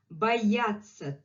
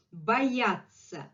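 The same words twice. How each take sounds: The two takes are said the same way.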